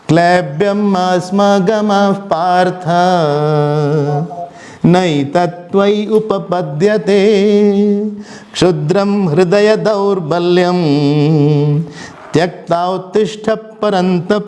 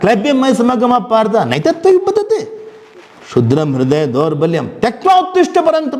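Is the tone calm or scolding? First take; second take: calm; scolding. First: It is recited in an even, calm tone. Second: It is spoken in a sharp, scolding tone. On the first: The speaker calls it wrong. "ऐसे नहीं बोला था" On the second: The speaker calls it right. "थोड़ा सा डांट थी उसमें, चुभने वाली बात बोली थी"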